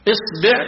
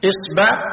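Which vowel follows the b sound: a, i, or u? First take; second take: i; a. First: The b is followed by an i vowel. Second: The b is followed by an a vowel. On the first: "بكسر الباء" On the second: "بفتح الباء"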